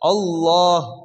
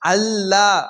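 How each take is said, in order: First: The L is said heavy and full. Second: The L is said light and thin. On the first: The speaker calls it right. "உயர்த்தி அல்லாஹ் அல்லாஹ்" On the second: The speaker calls it wrong. "அவர் தவறா சொல்றாரு"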